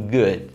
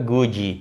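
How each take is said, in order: First: The word ends cleanly on the D sound. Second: An extra vowel sound follows the final D. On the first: The speaker calls it right. "você vai terminar o som na própria consoante" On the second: The speaker calls it wrong. "colocarem o som de vogal, um som de I"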